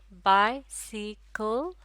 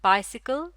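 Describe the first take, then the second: First: bicycle in three slow beats, बाइ, सि, कल; syllable by syllable. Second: Said in the usual way. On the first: Shown as a demonstration. Teacher counting syllables in bicycle, slow and separated. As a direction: stretch bicycle out with a gap after each syllable. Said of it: "तीन syllable". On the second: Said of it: "bicycle में कितने syllable हैं".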